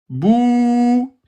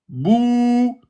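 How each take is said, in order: The two takes are said the same way.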